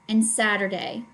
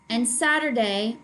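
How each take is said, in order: Both takes have the same delivery.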